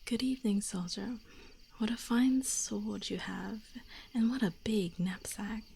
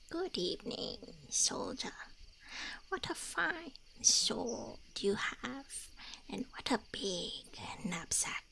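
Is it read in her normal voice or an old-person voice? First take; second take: normal voice; old-person voice. First: It is read in her own normal voice. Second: It is read in a put-on old-person voice.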